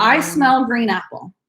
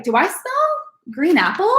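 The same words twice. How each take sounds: First: "I smell green apple." said flatly with the voice falling at the end; confident statement. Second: "Do I smell green apple?" with the voice climbing at the end like a question; doubtful, tentative, pitch going up on "apple"; unsure rising question. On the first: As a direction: sure of it, no rise on "apple". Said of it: "just say". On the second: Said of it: "make your voice go up at the end". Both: Shown as a demonstration.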